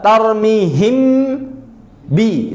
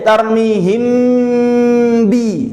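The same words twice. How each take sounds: First: The lips close twice, for m then b. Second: One lip closure holds m straight into b. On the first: The speaker calls it wrong. "Makhrajnya kerja dua kali. Untuk mim tarmihim, habis itu pindah untuk ba" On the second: The speaker calls it right. "kerja sekali hasil dua"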